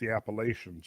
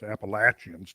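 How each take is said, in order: First: It is said in a non-local pronunciation. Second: It is said in the local pronunciation.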